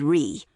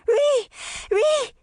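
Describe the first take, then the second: First: Said in the usual way. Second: Put-on very high toddler squeal of a shout; excited baby voice. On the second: A narrator's reading. Toddler pointing at something in the water, excited baby shout. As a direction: shout it like an excited baby, louder and far higher. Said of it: "shouting excitedly in her baby voice".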